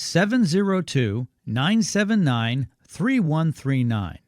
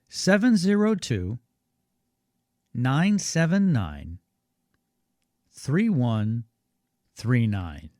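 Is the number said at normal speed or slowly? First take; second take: normal; slowly. First: It is said at normal speed. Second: It is said a little more slowly.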